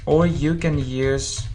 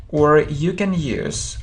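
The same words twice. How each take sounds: Both takes have the same delivery.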